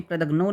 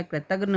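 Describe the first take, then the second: First: कृतघ्नो ending in a round "no"; wrong word ending. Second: कृतघ्न ending in short "ghna"; correct word ending. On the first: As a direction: put an o on the end of कृतघ्नो. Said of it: "नहीं होता है". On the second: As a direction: end कृतघ्न without any o. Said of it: "होता है". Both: Shown as a demonstration.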